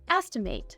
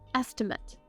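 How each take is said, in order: First: The last syllable sounds like 'mate'. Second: The last syllable sounds like 'mit'. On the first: It is used as a verb. "As a verb, this word is pronounced estimate" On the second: It is used as a noun. "we'd say an estimate"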